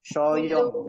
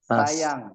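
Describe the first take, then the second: First: It is said with rounded, pouting lips. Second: It is said with spread, smiling lips. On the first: The listener will not like being addressed this way. The speaker calls it wrong. "Kalau pakai huruf shin besar" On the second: It is a pleasant way to address the opposite sex. The speaker calls it right. "karena senyum"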